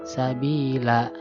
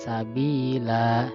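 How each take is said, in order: First: The final vowel is held longer or shorter. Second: The final vowel is held for two beats. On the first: The speaker calls it wrong. "tidak sabila" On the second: The speaker calls it right. "jadi dua harokat sabila"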